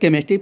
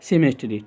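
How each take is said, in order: First: The word begins with a k sound. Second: The word begins with an s sound. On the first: The speaker calls it right. "इसको केमिस्ट्री पढ़ते हैं" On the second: The speaker calls it wrong. "ना कि सेमेस्ट्री"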